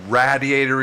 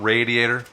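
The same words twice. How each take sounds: First: The first syllable rhymes with 'bad'. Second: The first syllable rhymes with 'made'. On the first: "radiator is the correct pronunciation" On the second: "and not radiator"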